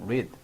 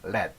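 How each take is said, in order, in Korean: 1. 현재형 발음으로 말합니다. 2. 과거형 발음으로 말합니다. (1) "현재는 read" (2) "과거는 read 합니다"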